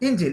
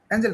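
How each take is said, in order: First: The first vowel is like e in bed. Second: The first vowel is like a in cat. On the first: The speaker calls it right. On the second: The speaker calls it wrong.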